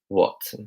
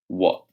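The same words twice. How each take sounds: First: It is said in an RP accent. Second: It is said in a London accent. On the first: "So let's teach you an R P" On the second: "In my London accent, I was saying what"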